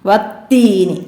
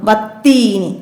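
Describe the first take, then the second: The two takes are said the same way.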